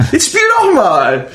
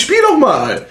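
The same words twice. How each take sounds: First: Insistent shout. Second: Teasing urge. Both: Retold or imitated. Mock gift-giver urging to play.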